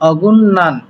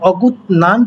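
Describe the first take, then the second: First: An N sound comes before 'nan'. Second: A T sound comes before 'nan'. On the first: The speaker calls it right. "তাই উচ্চারণটা হবে অগুন্নান" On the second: The speaker calls it wrong. "অগুত নান পড়তে পারেন, কারণ এখানে শিওরটা নিচে থাকার কারণে সেটা ত পড়তে পারেন"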